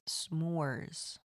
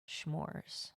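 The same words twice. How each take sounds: First: The word begins with a plain s sound. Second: The word begins with a sh sound. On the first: The speaker calls it right. "I think it's s'mores" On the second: The speaker calls it wrong. "I think I say that word wrong"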